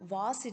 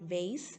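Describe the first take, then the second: First: The word is said in a non-American way. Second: The word is said in an American way.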